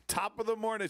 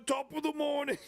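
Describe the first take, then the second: First: Mock British greeting. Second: "top of the morning" squeaked high in a hammed-up British accent; cringy fake British accent. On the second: Imitating a YouTuber's cringy British greeting, much higher. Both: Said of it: "incredibly cringy American top of the morning".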